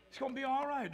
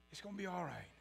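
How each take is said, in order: First: Said in the usual way. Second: "It's gonna be all right." much softer and lower, gently; soft reassurance. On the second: Shown as a demonstration. Preacher comforting the congregation, soft and low. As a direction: hush it down and comfort them.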